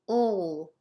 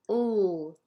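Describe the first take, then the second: First: A dark L with the tongue pulled back. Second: The same.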